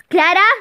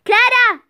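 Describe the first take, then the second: First: Loud call of the name. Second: Higher, louder furious call; angry shout. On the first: Father calling his daughter Clara, loud. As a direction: shout for her from the other room. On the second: Father yelling for Clara a second time, furious. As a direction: yell her name, losing patience. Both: Acted.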